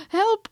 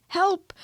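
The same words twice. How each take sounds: First: Even higher, louder help with a rising end; panicked rising cry. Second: High, loud cry for help; frightened cry. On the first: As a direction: shriek it up at the end. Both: A narrator's reading. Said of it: "cried Piglet".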